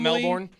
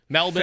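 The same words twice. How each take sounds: First: The second syllable is said with an R sound. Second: The second syllable is said without an R sound. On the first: The speaker calls it wrong. "not Melbourne" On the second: The speaker calls it right. "Silent R"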